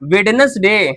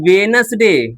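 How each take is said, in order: First: The first d sound is pronounced. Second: The first d sound is left out. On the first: The speaker calls it wrong. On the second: The speaker calls it right.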